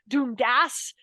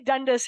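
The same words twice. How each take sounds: First: It is said the way Scottish people say it. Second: It is said the way Americans say it.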